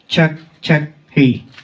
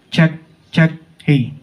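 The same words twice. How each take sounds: First: The voice sounds bright, with less bass. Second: The voice sounds deep, with heavy bass. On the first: "mas naging clear yung voice natin" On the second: "medyo malalim pa rin yung boses ko"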